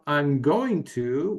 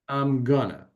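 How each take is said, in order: First: Each word is said fully and separately. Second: The words are blended into a reduced form. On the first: "Instead of I'm going to" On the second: "we say"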